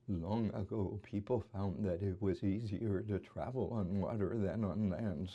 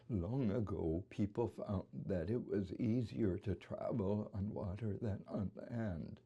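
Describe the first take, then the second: First: The voice shakes throughout with no brief catches. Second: The shaking voice has a few brief catches. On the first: "a voice that's dominated by tremor" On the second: "let me put in a few"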